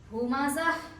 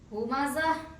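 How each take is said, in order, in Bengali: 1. শব্দটি নরম h ধ্বনিতে শেষ হয়। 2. শব্দটি নরম h ধ্বনিতে শেষ হয়।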